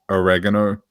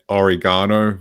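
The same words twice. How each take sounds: First: It is said with an American pronunciation. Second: It is said with a British pronunciation. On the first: This is how the American friends expect it. "rather than oregano" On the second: This is how the speaker herself says it. "pronouncing it oregano"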